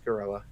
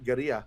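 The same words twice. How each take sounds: First: The word is read with English sounds. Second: The word is read with Spanish-style sounds. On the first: The speaker calls it right. "but no, it's it's it's Gorilla" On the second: The speaker calls it wrong. "It looks like a Spanish words"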